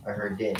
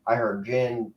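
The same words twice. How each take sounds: First: "din" opening on a hard d; "din" said like the word for noise. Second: "jinn" said with j, rhyming with pin. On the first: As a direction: say "din" with d in place of j. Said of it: "I actually pronounce it din". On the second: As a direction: say "jinn" like the drink gin. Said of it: "they say jinn". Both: Shown as a demonstration.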